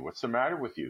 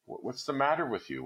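First: Faltering. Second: First ask raised high, shaky and worried; faltering. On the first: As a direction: ask again more steadily. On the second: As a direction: stammer out "what's the matter", startled. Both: A narrator's reading. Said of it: "he faltered".

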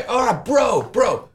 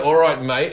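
First: Put-on high American-accented kid with his bros; American gamer kid. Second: Kid's imitation of an Australian accent; put-on Australian accent. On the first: Son chatting to mates online, high American accent. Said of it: "My kid has an American accent". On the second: Son showing off to mates, put-on Australian accent. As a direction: lay on the Australian "mate". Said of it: "Oh, I'm Australian".

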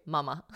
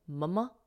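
First: "Mama" with an open ah, /mɑmə/; broad a Mama. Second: "Mama" with the flat a of "mum", /mʌmə/; short a Mama. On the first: Contrasting the British "Mama" for listeners, mah-mah. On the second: Asking whether kids say "Mama" the American way, muh-muh. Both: Shown as a demonstration. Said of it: "is it "Mama" instead of "Mama".

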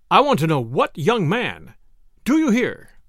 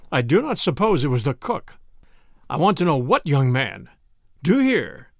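First: Insistent repeat. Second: Dry, controlled demand. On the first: Husband snatches covers from wife's face, insistent demand. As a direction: press harder, pitch climbing on the last question. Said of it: "He snatched the covers from her face, repeating". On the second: Husband questioning his silent wife, dryly. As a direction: press for an answer without much rise. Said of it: "said dryly". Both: A narrator's reading.

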